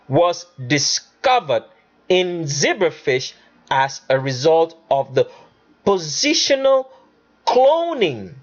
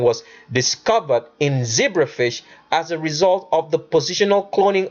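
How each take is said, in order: First: The sentence is read at a slow pace. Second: The sentence is read at a fast pace. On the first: The fine details come through. The speaker calls it right. "we're going to read it slow so you get it" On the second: The fine details are easy to miss. The speaker calls it wrong. "if you read that too fast"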